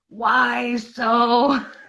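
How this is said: It is said in a put-on character voice.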